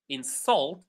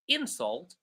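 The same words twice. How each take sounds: First: The stress is on the second syllable. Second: The stress is on the first syllable. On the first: It is used as a verb. "When they are verbs, we stress the second syllable" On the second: It is used as a noun. "when these words are nouns, we stress the first syllable"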